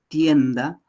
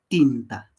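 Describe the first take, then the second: First: It has the diphthong 'ie' and a 'd' sound. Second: It has a single 'i' vowel and a 't' sound. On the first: "podemos ver en esta palabra tienda" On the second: "entonces pronuncia como tinta"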